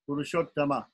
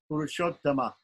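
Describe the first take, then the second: First: The word ends with a short a vowel. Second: The word ends with a short a vowel.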